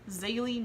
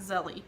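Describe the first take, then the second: First: The first vowel sounds like the vowel in 'day'. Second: The first vowel sounds like the vowel in 'bed'. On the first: The speaker calls it right. "that's going to make us pronounce this name as Zaylee" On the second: The speaker calls it wrong. "not Zelly"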